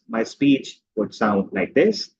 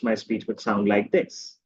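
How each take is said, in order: First: Each word is chopped off separately. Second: The words flow together without breaks.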